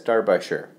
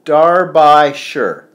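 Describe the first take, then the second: First: Darbyshire as DAR-bye-shur, read as written; phonetic spelling. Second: Darbyshire said slow, DAR-by-shire with a long i; phonetic spelling. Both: Shown as a demonstration. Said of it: "Pronounced phonetic".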